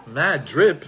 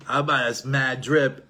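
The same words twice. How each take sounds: First: Louder puzzled repeat with a rise; baffled echo. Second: Slow, lightly voiced teenager with rising tag; a hint of a cool teenage son dropping slang. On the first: Retold or imitated. Father repeats son's slang, louder and puzzled. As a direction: echo the strange phrase, confused. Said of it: "I didn't know what that meant". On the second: Son shows off new street slang to his father, slow and casual. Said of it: "Now what does he say?".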